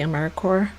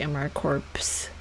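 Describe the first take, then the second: First: The final P and S are silent. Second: The final P and S are pronounced. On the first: The speaker calls it right. "I don't pronounce the P and the S" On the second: The speaker calls it wrong. "you're not supposed to say AmeriCorps"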